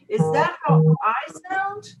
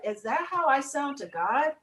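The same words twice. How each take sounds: First: "Is that how I sound?" higher, weighing each word; emphatic repeated question. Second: Said in the usual way. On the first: Retold or imitated. Woman asking herself how she sounds, emphatic on "Is that how I sound?".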